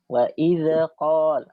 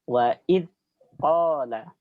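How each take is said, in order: First: The dh sound ends with a bounce. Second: The dh sound's airflow is cut short. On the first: "itu pantulan namanya, tidak boleh" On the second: "dengan ditahan aliran suaranya"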